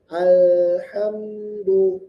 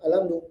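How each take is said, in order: First: The l and m are slightly held, with tiny pauses. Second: The word runs straight through without any hold. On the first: The speaker calls it right. "Ada kayak jeda sedikit" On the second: The speaker calls it wrong. "Jadi tidak langsung alhamdu"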